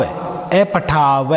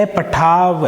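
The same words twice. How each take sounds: First: अपठाव drawn out very slowly, every sound spoken in full; full pronunciation. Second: Said in the usual way. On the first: Shown as a demonstration. Teacher shows students how not to swallow the word. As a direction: stretch अपठाव without swallowing the ending. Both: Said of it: "वह भी पूरा बोलना है, खाना नहीं है".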